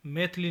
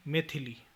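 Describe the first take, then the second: First: मैथिली without i after th; mispronunciation. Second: Said in the usual way. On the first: Shown as a demonstration. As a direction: say maith-li for मैथिली. (मैथिली को मैथली बोलें) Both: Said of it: "नहीं".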